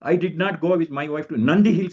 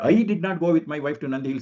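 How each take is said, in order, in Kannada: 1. ಒತ್ತು "Nandi Hills" ಮೇಲೆ ಬೀಳುತ್ತದೆ. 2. ಒತ್ತು "I" ಮೇಲೆ ಬೀಳುತ್ತದೆ. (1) "ನಾನು ಬೇರೆ ಕಡೆಗೆ ಹೋಗಿದ್ದೆ, ನಂದಿ ಹಿಲ್ಸ್ ಹೋಗಿಲ್ಲ ಅಂತ" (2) "ಐ ನ ಒತ್ತು ಕೊಟ್ಬಿಟ್ರೆ"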